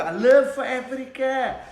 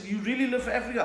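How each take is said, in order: First: Loud, high, drawn-out mock declaration; hammed-up zealous cry; impassioned son. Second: High-pitched query to his son; acted dad's question. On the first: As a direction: proclaim it as the fervent son. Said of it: "he's like". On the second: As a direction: imitate a doubting father asking. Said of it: "I said".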